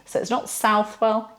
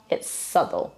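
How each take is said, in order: First: "Southwell" said SOUTH-well; spelling reading. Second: "Southwell" said SUTH-ul, low and soft; correct pronunciation. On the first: Teacher repeats the wrong way. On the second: Teacher settles the right form. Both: Shown as a demonstration.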